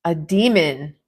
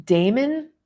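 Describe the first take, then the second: First: Demon, said as the creature; A demon, stressed and firm. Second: Damon, said as the name. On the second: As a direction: Damon with a rising question. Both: Shown as a demonstration.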